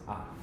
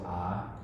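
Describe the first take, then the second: First: The vowel is cut short. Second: The vowel is held long. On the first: "a short A" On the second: "we have the long A"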